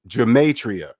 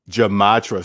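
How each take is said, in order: First: The word is said with four full syllables. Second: The word is squeezed into three syllables. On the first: The speaker knows the word. The speaker calls it right. "four syllables" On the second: The speaker does not know the word. The speaker calls it wrong. "I said Jamatra, right?"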